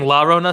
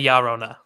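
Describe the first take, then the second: First: The double L is said as an L sound. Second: The double L is said as a Y sound. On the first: The speaker calls it wrong. "Instead of saying La Rona" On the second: The speaker calls it right. "say Yarona"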